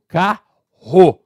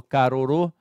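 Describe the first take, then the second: First: "carro" with one strong guttural R, said slow and loud; right pronunciation. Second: "carorô" with each R tapped, split into three syllables; wrong syllable-by-syllable. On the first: Teacher shows the right way, "carro" with a strong R. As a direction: give "carro" a single strong throaty R. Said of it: "eu falo carro". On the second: Teacher demos the wrong way, "carorô" with tapped R's. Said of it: "eu não falo carorô". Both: Shown as a demonstration.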